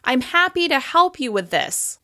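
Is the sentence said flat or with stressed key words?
stressed. Happy, help and this are clearly stressed. The speaker calls it right. "I'm stressing the words happy, help, and this"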